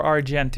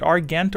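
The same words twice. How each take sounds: First: Argent with a soft g. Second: Argent with a hard g. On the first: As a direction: say Argent with a j sound in the middle. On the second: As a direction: say Argent with the g of "get". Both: Shown as a demonstration. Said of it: "is it Argent or Argent in English".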